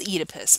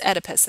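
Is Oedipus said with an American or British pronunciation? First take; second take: British; American. First: It is said with a British pronunciation. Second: It is said with an American pronunciation. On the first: "The British pronunciation is Oedipus" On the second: "it's Oedipus in the U S"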